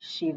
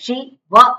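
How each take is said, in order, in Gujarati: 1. બે ભાગ સરળતાથી એકસાથે જોડાઈ જાય છે. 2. બે ભાગ અલગ પડી જાય છે. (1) "શું બોલે છે શિવ" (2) "શિ વ એવું નથી બોલતા"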